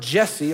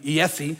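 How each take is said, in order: First: The name begins with a J sound. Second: The name begins with a Y sound.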